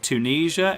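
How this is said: It is said with an American pronunciation. "how they say it in America"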